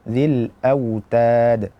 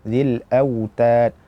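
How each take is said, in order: No difference in how they are said.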